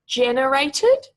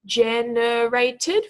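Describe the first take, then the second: First: "Generated" said slowly and loudly, stressed on GEN; stress on first syllable. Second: "generated" very slowly, syllable by syllable, rising at the end; stretched into syllables. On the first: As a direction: stretch out "Generated", first syllable strongest, ending on a rise. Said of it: "with emphasis on the first syllable". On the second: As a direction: draw out each of the four syllables in "generated". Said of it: "stretch those out nice and slowly into individual syllables". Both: Shown as a demonstration.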